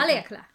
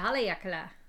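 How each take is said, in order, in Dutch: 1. Het woord wordt sneller gezegd. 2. Het woord wordt langzamer gezegd.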